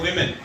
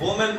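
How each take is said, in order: First: The first syllable has an 'i' vowel. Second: The first syllable has an 'oo' vowel. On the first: The speaker calls it right. "इसकी जो सही pronunciation है वो है विमेन" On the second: The speaker calls it wrong. "वुमेन इसकी बिल्कुल गलत pronunciation है"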